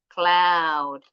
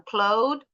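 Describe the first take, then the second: First: Cloud with an open OW as in 'now'; correct 'ow' vowel. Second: Cloud said with OH, like 'load'; mistaken 'oh' vowel. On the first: Teacher corrects the wrong take, cloud with a clear OW. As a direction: say cloud louder and firmly, with 'ow'. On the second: Teacher shows students what to avoid, cloud with an OH vowel. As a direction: say cloud with a long O instead of 'ow'. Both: Shown as a demonstration. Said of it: "jadi bukan cloud".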